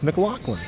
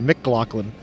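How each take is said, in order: First: No hard g sound is heard in the name. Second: A hard g sound is heard in the name. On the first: The speaker calls it right. "no, no, it's McLaughlin" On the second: The speaker calls it wrong. "most people use the G in there"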